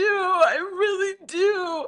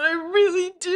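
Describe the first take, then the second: First: Stretched-out, high, tearful repeat; slowed mock crying Tom. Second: High, tearful parody line; mock crying Tom. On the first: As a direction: drag the plea out slowly and weepily. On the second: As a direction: plead it high and weepy. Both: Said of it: "But he's like".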